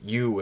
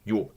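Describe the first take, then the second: First: The vowel is drawn out and glides on. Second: The vowel is very short and crisp. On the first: "If I say you in English, there's like it kind of carries over" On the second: "in Russian it's it's very short and crisp"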